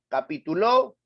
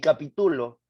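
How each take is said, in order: First: The stress is on the last syllable. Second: The stress is on the third syllable. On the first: "Capituló aguda" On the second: "capítulo grave"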